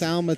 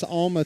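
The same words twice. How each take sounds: First: Alma said AL-muh, with a flat "a" as in "pal"; corrected Alma. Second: Alma said AHL-muh, with an open "ah" as in "father"; mispronounced Alma. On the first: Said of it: "I'll try and get this correct here". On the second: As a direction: say Alma as AHL-muh, broad "ah" first syllable. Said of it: "I keep on saying it wrong". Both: Real, not acted.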